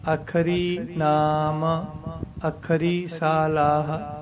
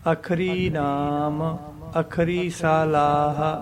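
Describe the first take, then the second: No difference in how they are said.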